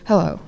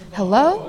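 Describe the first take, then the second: First: The pitch falls on the word. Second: The pitch rises on the word.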